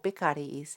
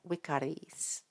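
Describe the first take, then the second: First: The word begins with a B sound. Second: The word begins with a V sound. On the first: This is the later, Spanish-like pronunciation. "they're pronouncing their their U or their V as a B" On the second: This is the standard Latin pronunciation. "instead of"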